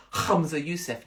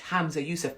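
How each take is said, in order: First: Hamza with a rasped kh; exaggerated guttural first sound in Hamza; throaty H on Hamza. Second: Said in the usual way. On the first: Shown as a demonstration. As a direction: scrape the H at the start of Hamza. Repeats name with throaty first sound.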